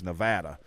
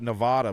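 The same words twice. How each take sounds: First: The name is said the way locals say it. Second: The name is said the way outsiders say it. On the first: The speaker calls it right. "how the people that live there actually pronounce it" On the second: The speaker calls it wrong. "I called it Nevada my whole life"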